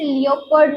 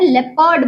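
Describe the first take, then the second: First: The first syllable sounds like 'lee-oh'. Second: The first syllable sounds like 'leh'. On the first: The speaker calls it wrong. "इसे लियोपर्ड नहीं बोलते हैं" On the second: The speaker calls it right. "लेपर्ड बोलते हैं"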